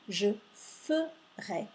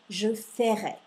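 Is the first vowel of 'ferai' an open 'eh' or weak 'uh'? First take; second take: weak uh; open eh. First: The first vowel is a weak 'uh' sound. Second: The first vowel is an open 'eh' sound. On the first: The word is spelled with a single R. The speaker calls it right. "mais je dis je ferai. Donc quand j'entends le E" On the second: The word would be spelled with a double R. The speaker calls it wrong. "s'il y avait deux R, la prononciation serait je ferai"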